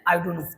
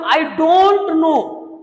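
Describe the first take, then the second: First: The words run together in a reduced form. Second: Each word is said fully and separately. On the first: "उनको हम लोग कैसे बोलते हैं?" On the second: "अगर मैं बोलूं आई डोंट नो"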